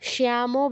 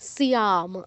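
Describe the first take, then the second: First: The word ends with an added vowel sound. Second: The word ends on the consonant m. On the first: The speaker calls it wrong. "শ্যামও বলবেন না" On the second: The speaker calls it right. "শ্যাম শ্যাম"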